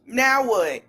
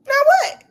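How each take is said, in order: First: Said in the usual way. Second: "Now what?" shot up high and loud, rising on "what"; mock-incredulous high "Now what?"; high squeal "Now what?". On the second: Shown as a demonstration.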